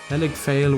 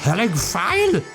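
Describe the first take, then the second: First: It is said plainly, without an exaggerated accent. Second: It is said in an exaggerated German accent.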